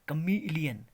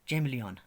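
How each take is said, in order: First: The word begins with a k sound. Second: The word begins with a ch sound. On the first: The speaker calls it right. "It's correct pronunciation is क अ म ई ल ई अ न" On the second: The speaker calls it wrong. "चैमलियन is the wrong pronunciation"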